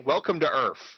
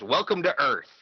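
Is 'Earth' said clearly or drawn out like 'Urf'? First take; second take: drawn out; clear. First: Earth is drawn out and mangled like 'Urf'. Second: Earth is pronounced crisply and clearly. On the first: This is how people misremember the line. The speaker calls it wrong. "like U R F Earth" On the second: This is how the line is actually said. The speaker calls it right. "He enunciates it perfectly"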